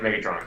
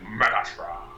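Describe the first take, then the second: First: The name is said plainly, without feeling. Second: The name is said with disgust, like Optimus Prime.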